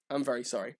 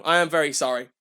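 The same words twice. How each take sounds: First: Softer, lower repeat of sorry; quiet sorry. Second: Said in the usual way. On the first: Real, not acted. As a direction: murmur the apology again.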